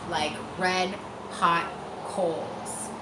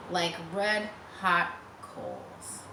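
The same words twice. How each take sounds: The two takes are said the same way.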